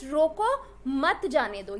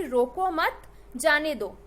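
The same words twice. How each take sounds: First: रोको held and rising, break, then "मत जाने दो" as one phrase; pause after रोको. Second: "रोको मत" run together, break, then "जाने दो"; group रोको with मत, then let जाने दो stand apart; pause after मत. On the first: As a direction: put the comma pause before मत, straight after रोको. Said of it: "कॉमा अगर मैं मत के पहले लगा दूं". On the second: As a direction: put the comma pause right after मत, before जाने. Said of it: "कॉमा मैंने मत के बाद लगाया". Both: Shown as a demonstration.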